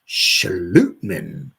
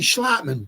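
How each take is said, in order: First: The name is said the Danish way. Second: The name is said the common American way. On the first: This is said to be the name's original pronunciation. "it's a Danish pronunciation" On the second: This is how most people say it. "I heard a lot of people say Schlotman"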